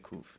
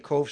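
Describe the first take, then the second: First: The vowel sounds like a 'u'. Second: The vowel sounds like an 'o'. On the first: "some people say Kuf" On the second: "Some people say Kof"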